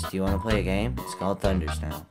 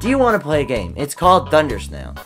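First: It is said in a character's put-on voice. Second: It is said in his normal voice.

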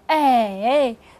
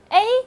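First: The pitch dips low, then rises. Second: The pitch stays high and level. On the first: "三声是哎" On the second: "一声A"

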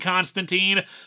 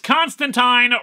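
First: The last syllable rhymes with teen. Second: The last syllable rhymes with wine. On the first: The speaker calls it wrong. "I kept saying Constantine" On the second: The speaker calls it right. "rhymes with wine"

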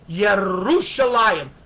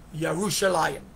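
First: The r sound is rolled with the tongue. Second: The r sound is not rolled. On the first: The speaker calls it wrong. "always does it with the roll of his tongue" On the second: The speaker calls it right.

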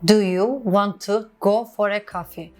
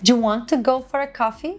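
First: 'Do you' is pronounced as two full words. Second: 'Do you' is squeezed into one short sound.

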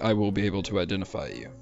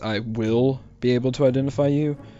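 First: The word 'will' has no special emphasis. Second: The word 'will' carries strong emphasis. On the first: It is just a statement. "Just a statement" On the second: It is a warning. "what he's actually saying is"

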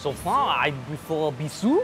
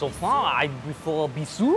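First: The name is said with a French accent. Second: The name is said with a French accent.

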